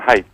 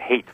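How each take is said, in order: First: The vowel sounds like the one in 'height'. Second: The vowel sounds like the one in 'hate'. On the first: The speaker calls it right. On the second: The speaker calls it wrong.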